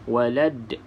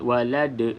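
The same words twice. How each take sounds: First: The final d bounces lightly with no vowel. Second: The final d is forced with an added vowel. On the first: The speaker calls it right. "d tu adalah lantunan" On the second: The speaker calls it wrong. "bukan kita buat-buat"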